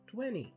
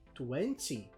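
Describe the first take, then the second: First: The word is said in a reduced fast-speech form. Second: The word is said in its careful full form.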